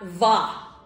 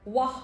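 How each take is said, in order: First: The syllable begins with a buzzing v sound. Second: The syllable begins with a rounded w sound. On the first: The speaker calls it wrong. "not va" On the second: The speaker calls it right. "you need to pronounce the letter W as what? Wah"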